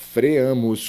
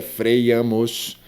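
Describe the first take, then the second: First: "freamos" as fre-A-mos; "freamos" with no y glide; freamos without the i. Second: "freiamos" said slowly as frei-A-mos; "freiamos" with a y before the a; mispronounced freamos with an i. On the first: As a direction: move from e straight to a in "freamos". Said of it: "E o correto seria". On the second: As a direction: sound the wrong i glide in "freiamos". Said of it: "não diga freiamos". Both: Shown as a demonstration.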